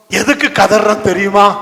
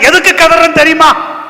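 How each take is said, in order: First: Said in the usual way. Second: High, loud challenge; shouted demand. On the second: Acted. Captain confronting Jonah about the crying, shouted demand. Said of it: "captain வந்து கேக்குறான்".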